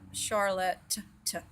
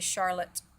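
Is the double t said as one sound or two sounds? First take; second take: two sounds; one sound. First: The double t is sounded as two separate sounds. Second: The double t is sounded as one sound. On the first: The speaker calls it wrong. "We don't say Charlotte, Charlotte, t" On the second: The speaker calls it right. "We just say Charlotte"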